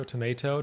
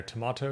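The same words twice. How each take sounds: First: TOMATO as "to-MAY-to"; American TOMATO with MAY in the middle. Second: TOMATO as "to-MAH-to"; British long-A TOMATO. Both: Shown as a demonstration. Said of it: "That's how people say that".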